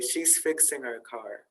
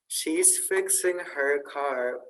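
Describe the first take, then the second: First: The h in her is dropped. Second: The h in her is clearly pronounced. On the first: "we often leave out the H sound to make it go faster" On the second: "instead of saying"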